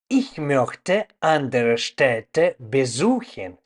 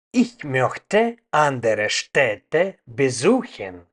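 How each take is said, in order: Both takes have the same delivery.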